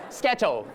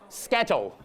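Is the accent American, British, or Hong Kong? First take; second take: Hong Kong; Hong Kong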